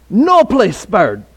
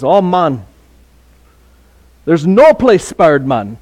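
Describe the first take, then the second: First: Put-on the Jamaican accent repeated very slowly. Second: Light imitation of a Jamaican accent, drawn out; a friend's Jamaican accent, half-imitated, unhurried. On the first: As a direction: lean into the Jamaican accent, stretching "No place spared" word by word. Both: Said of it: "in his Jamaican accent".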